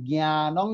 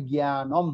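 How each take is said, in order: First: জ্ঞানং with its written nasal ending. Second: Slow জ্ঞানম closing on m; anusvara as m. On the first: Teacher pointing out the written word, জ্ঞানং with anusvara ending. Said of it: "যেটা লেখা আছে". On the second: Teacher correcting the written form, slow জ্ঞানম with closed m. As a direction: turn the nasal ending into a firm m in জ্ঞানম. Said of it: "সেটা হবে". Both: Shown as a demonstration.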